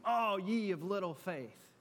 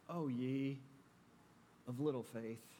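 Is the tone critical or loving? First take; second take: critical; loving. First: It sounds critical and scolding. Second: It sounds loving and tender.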